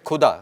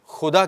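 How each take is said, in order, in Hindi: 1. यह शब्द महाप्राण k स्पर्श ध्वनि से शुरू होता है। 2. यह शब्द खरखरी कंठ्य संघर्षी ध्वनि से शुरू होता है। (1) "उसमें अगर नुक्ता नहीं लगाते" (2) "जैसे हम खुदा कहते हैं"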